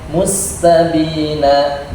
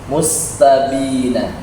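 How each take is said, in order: Both takes have the same delivery.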